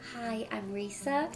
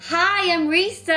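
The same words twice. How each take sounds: First: It is said shyly and hesitantly. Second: It is said with lively, confident energy. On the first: The speaker is a shy person. "If you're a shy person, maybe you can speak like this" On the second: The speaker is a positive, assertive person. "if you're a positive and aggressive person, you can speak like this"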